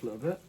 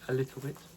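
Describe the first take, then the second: First: The T sounds are dropped or swallowed. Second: The T sounds are clearly pronounced. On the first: The speaker calls it wrong. "I seem to have been slipping recently with, with a little bit" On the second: The speaker calls it right. "Trying to make sure I enunciate to pronounce things right"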